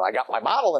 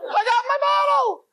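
First: Said in the usual way. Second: Very high-pitched shriek of triumph; ecstatic screaming. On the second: Acted. Man celebrating in the bathroom, ecstatic screaming. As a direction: squeal it out, beside yourself with joy. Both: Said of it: "What is he screaming?".

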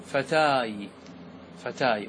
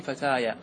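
First: "فتاي" closed on a y sound, no final vowel; pause form. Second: "فتايا" with an open a after the y; connected form. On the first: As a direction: stop on the y at the end of "فتاي". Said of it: "وفي الوصل تقول". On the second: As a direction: sound the final vowel of "فتايا", as in joined speech. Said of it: "وفي الوصل تقول فتايا". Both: Shown as a demonstration.

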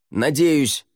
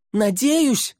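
First: High call back; shouted answer. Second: Very high, shouted disbelief; incredulous echo. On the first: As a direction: holler back down, raised pitch. Shouted answer over the cliff. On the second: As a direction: shriek it back as an alarmed question. Alarmed echo from below. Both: A narrator's reading.

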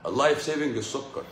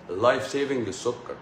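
No difference in how they are said.

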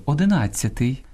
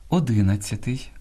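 First: Одинадцятий stressed on НАД; Ukrainian stress. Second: Одинадцятий stressed on second syllable ДИ; Russian-influenced stress. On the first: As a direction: say оди-НАД-цятий. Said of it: "а українською одинадцятий". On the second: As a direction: say о-ДИ-надцятий. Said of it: "неправильне наголошування слів". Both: Shown as a demonstration.

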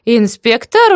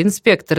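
First: High, loud rising "Инспектор?"; amazed auntie question, pitched up; surprised. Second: Said in the usual way. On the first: A narrator's reading. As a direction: echo it back in astonishment. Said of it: "удивилась тётка".

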